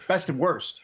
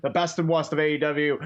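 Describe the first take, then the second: First: Said in the usual way. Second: Put-on Boston accent, r dropped: "worst" said "wahst". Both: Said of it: "That was your Boston accent".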